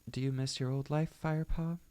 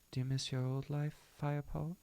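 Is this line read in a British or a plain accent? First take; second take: plain; British. First: It is read in the speaker's usual accent. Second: It is read in a put-on British accent.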